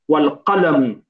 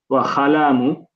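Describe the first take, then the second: First: The word begins with a deep q sound. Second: The word begins with a raspy kh sound. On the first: The speaker calls it right. "but it's qa" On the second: The speaker calls it wrong. "It's like you're saying kha"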